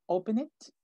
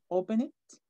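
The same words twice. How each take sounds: The two takes are said the same way.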